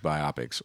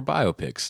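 First: "biopics" said as bi-OP-ics, stress on the middle; alternative pronunciation. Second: "biopics" said as BIO-pics, two words run together; alternative pronunciation. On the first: Reading out a listener's question, "biopics" as bi-OP-ics. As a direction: say "biopics" to rhyme with myopics. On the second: Offering the other way to say it, "biopics" as BIO-pics. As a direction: say "biopics" as BIO plus pics, higher on the start. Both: Shown as a demonstration. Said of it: "depending on how you wanna say it".

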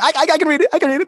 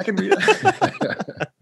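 First: Much higher, eager little voice from the back; eager to show off. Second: High, slow, laughing repeat; laughing echo. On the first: Himself at the audition's back, eager squeak. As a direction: pipe up, desperate to be picked. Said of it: "I was in the back going". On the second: Host echoes the guest through laughter. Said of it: "laughs That's awesome". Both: Retold or imitated.

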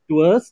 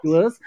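First: "Doers" said as /təs/, short and rising; correct pronunciation. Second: "Doers" said again as /dəs/ with a rise; repeating the pronunciation. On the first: Correcting the guests on how to say "Doers". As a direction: spell out "Doers" slowly so they get it. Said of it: "not do's". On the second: Answering her "What?" by repeating "Doers" plainly. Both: Shown as a demonstration.

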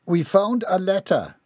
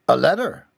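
First: "a letter" stated as news, falling at the end; announcing. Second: "A letter" rising sharply into a question; surprised echo. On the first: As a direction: announce "a letter" with a high start and falling close. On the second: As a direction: echo "A letter" louder, voice going up. Parent echoes in surprise. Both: A narrator's reading.

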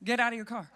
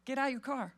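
First: Plain command. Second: Flat, quiet authority; just state it, no fuss; calm firm command. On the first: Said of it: "He just says". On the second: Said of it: "No, he just says". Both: Retold or imitated.

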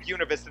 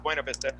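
First: "Buena" said BYOO-nuh, in "Buena Vista"; local pronunciation. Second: "Buena" said BWAY-nuh, in "Buena Vista"; standard pronunciation. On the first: Explaining the hometown name, "Buena" pronounced BYOO-nuh. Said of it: "We pronounced it". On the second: Correcting how the town is said, "Buena" pronounced BWAY-nuh. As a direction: say "Buena" with a BWAY first syllable. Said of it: "not Buena Vista". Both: Shown as a demonstration.

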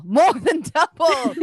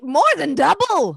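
First: More drawn out slowly, MORE stressed; slower emphatic repeat. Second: High, loud pompous announcer. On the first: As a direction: draw out more than double. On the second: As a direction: stress double grandly. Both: Acted. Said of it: "the announcer says".

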